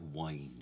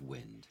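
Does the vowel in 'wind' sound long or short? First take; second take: long; short. First: The vowel is long, rhyming with 'kind'. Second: The vowel is short, rhyming with 'tinned'. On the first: This is the original Shakespearean pronunciation. "it's really great if we can all hit, like wind" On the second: This is the modern pronunciation. "instead of wind"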